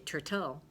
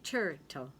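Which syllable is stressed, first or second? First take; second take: second; first. First: The stress is on the second syllable. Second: The stress is on the first syllable. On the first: The speaker calls it wrong. "But you don't ever say turtle" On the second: The speaker calls it right. "You say turtle"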